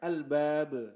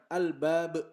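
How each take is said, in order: First: The final b is released with a bouncing echo. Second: The final b stops dead with no release. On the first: The speaker calls it right. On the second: The speaker calls it wrong. "Jadi jangan"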